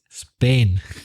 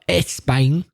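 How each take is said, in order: First: The word begins directly with the s sound. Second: An extra 'e' vowel comes before the s. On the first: The speaker calls it right. "it's Spain" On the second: The speaker calls it wrong. "It's not Espagne"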